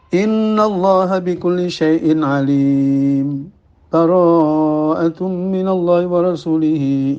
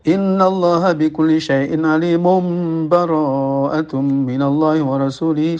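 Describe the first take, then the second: First: A brief pause without a breath separates the verses. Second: The verses run together with no pause. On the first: The passages are briefly separated but not fully ended. "ada saktah, diam sejenak tanpa bernafas" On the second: The two passages are joined as one continuous reading. "al-waslu disambung, langsung disambung"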